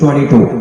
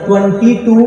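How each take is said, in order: First: The number is said clipped, in an English accent. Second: The number is said fully, every sound pronounced. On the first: "सही pronunciation अंग्रेज लोग ऐसे बोलते हैं, आधे चबा के बोलते हैं" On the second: "ट्वेंटी टू पूरे बोलते हैं"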